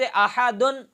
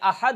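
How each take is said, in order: First: The word ends with the nasal 'un' sound. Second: The word ends without the nasal 'un' sound. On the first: The word is joined to the next word. "वसल की सूरत में पढ़ा जा रहा है" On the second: The reading stops on this word. "जब इस पर वक़फ़ करेंगे तो ये अहद हो जाएगा"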